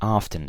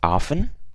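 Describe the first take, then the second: First: The T sound is pronounced. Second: The T sound is silent.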